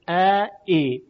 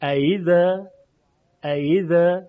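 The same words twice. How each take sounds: First: ا and ای as two separate syllables; firm glottal onset on both ا and ای; both hamzas full. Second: Louder ایذا, gliding from a to i without a hard stop; smooth a-to-i onset on ایذا, between hamza and y; tashil, softened hamza. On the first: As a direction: break cleanly between ا and ای. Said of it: "این ای دوم رو ما باید تسهیل کنیم". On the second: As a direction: ease the hamza in ایذا toward ya. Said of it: "با صدایی بین همزه و یا". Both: Shown as a demonstration.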